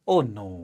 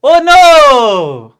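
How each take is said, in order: First: "Oh no" low and soft, offhand; casual oh no. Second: "Oh no" as a long loud high wail; wrong, overdramatic oh no. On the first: Teacher showing the right soft dismissive oh no. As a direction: toss off "Oh no" lightly and low. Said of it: "ऐसे वाला". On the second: Teacher showing the wrong loud wailing oh no. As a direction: wail "Oh no" like a disaster. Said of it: "इसको कई लोग ऐसे पढ़ेंगे ... ऐसे नहीं पढ़ना है". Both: Shown as a demonstration.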